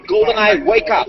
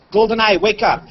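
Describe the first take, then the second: First: Voice command. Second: Same wake word spoken calmly; voice command. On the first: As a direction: clear command to the device. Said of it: "head mount display is just gonna wake up". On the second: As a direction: say the device name plainly. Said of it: "Then I launch the camera app". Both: Shown as a demonstration.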